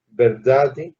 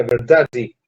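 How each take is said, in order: First: VERDADE drawn out slowly, rising at the end; slow word demonstration. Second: VERDADE said as a Portuguese speaker would; Portuguese-accented VERDADE, falling at the end. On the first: Teacher shows students how the word sounds, slow demonstration of VERDADE. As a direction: stretch VERDADE out syllable by syllable. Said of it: "fíjense cómo suena". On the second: Teacher shows how a Portuguese would say it, Portuguese accent. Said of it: "diría un portugués". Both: Shown as a demonstration.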